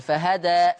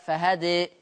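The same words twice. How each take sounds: First: فهدى with a fully open final alif. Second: فهدى with the final alif leaned toward ee; reduced alif. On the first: Teacher demonstrating the open ending of فهدى. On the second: Teacher demonstrating the reduced ending of فهدى. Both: Shown as a demonstration. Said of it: "لما أقف على فهدى ليا الفتح والتقليل".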